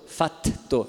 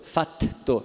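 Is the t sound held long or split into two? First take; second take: split; split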